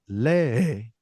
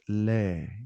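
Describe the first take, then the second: First: The vowel is held out very long. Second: The vowel is held only slightly long. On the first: The speaker calls it wrong. "You don't need to go lee" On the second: The speaker calls it right. "but just lee, extended a bit"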